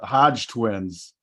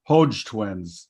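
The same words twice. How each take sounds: First: "Hodge" with a short open o, like "dodge"; short-o pronunciation. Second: "Hodge" with a long o, like "hoe" plus j; long-o pronunciation. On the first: Host naming his source, "Hodge" with short open o. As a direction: say "Hodge" to rhyme with "lodge", slowly. Reads name, then says it differently. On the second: Host re-saying the source's name, "Hodge" with long o. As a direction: say "Hodge" as "Hohj". Repeats name with another vowel. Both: Real, not acted.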